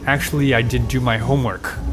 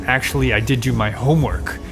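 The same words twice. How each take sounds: First: The word homework carries the stress. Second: The word homework carries the stress.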